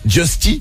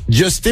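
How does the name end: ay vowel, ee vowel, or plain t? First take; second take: ee vowel; ay vowel. First: The name ends with an ee vowel. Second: The name ends with an ay vowel. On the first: The speaker calls it wrong. "d'autres qui disent Justy" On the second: The speaker calls it right. "d'autres qui disent Justé"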